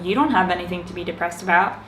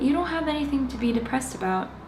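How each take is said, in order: First: It sounds judgmental and dismissive. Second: It sounds inquisitive and confused. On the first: The listener's feelings are being dismissed. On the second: The speaker genuinely wants to understand.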